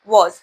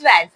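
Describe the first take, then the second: First: The vowel sounds like the one in 'hot'. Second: The vowel sounds like the one in 'cat'. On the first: The speaker calls it right. "W A S को वॉज पढ़ते हैं" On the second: The speaker calls it wrong. "वैज नहीं वॉज"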